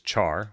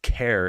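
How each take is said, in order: First: The vowel sounds like the word car. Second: The vowel sounds like the word care. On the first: "which is an English word to burn something" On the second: "pronounced care in character"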